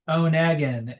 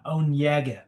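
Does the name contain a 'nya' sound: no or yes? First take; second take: no; yes. First: The name is said without a 'nya' sound. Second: The name is said with a 'nya' sound. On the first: The speaker calls it wrong. "Onegin is not right" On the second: The speaker calls it right. "It's more like with an Inya"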